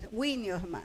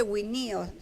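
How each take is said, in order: First: "winiosma" stressed on the first syllable, WI-nios-ma, falling away; correct first-syllable stress. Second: "winios-" with the stress shifted onto NI, wi-NI-os; wrong stress on second syllable. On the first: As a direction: hit WI in "winiosma", let the rest drop. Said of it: "no se dice winios-, winiosma". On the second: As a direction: mispronounce "winios-" by stressing the middle NI. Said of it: "No se, no se dice winios". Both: Shown as a demonstration.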